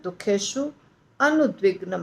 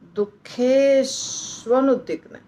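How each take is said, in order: First: The two words are said separately, split apart. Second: The two words are fused into one joined form. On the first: The speaker calls it right. "हमें उसको तोड़ के simple बनाना है।" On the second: The speaker calls it wrong. "पर हमें ऐसे नहीं बोलना है।"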